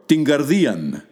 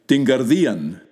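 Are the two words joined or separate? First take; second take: joined; joined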